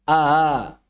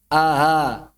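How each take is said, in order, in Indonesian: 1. Hamzah kedua itu dilunakkan dan berdesah. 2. Hamzah kedua itu dilunakkan dan berdesah.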